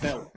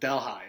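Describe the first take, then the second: First: It uses the Indian city's pronunciation. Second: It uses the local town's pronunciation. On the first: This is how the old city in India is called. "They got this place in India that's been there for a long time. It's called Delhi" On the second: This is how the town's residents say it. "They pronounce it Delhi"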